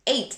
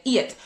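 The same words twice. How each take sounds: First: Said in the usual way. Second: "eat" said for eight, no final t glide; eight said as "eat", Jamaican style; Jamaican pronunciation. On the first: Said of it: "or eight". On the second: Shown as a demonstration. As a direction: say "eat" with a long ee in place of eight. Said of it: "they said eat".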